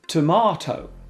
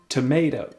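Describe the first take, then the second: First: It is said with a British accent. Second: It is said with an American accent.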